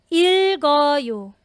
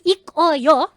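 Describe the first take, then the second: First: The consonant moves over to start the next syllable. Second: The syllables are said separately, with the consonant kept. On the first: The speaker calls it right. "Ayan po ang tamang reading" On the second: The speaker calls it wrong. "So you don't read it as ik o yo"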